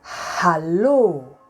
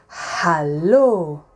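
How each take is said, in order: Both takes have the same delivery.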